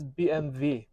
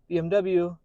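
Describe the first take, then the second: First: The last letter is said as German 'vay'. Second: The last letter is said as English 'double-u'. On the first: The speaker calls it right. "Germans do not pronounce W's" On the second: The speaker calls it wrong. "which means B M W is"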